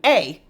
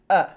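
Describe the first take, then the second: First: The vowel is said as the letter name. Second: The vowel is a short, relaxed uh sound. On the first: "You'd think an A would say its own name" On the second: "the short U sound uh"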